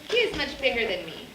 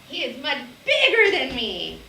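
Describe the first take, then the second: First: It is said as a calm statement. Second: It is said with strong excitement.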